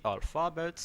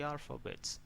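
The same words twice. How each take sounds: First: Alphabet with the middle syllable stressed, al-FA-bet; wrong stress. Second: Alphabet with stress on the first A; alphabet, front-stressed with a weak middle; correct stress. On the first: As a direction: mispronounce alphabet with a full FA in the middle. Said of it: "it's not good". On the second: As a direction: say alphabet as AL-fuh-bet. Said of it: "You'd better say alphabet". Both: Shown as a demonstration.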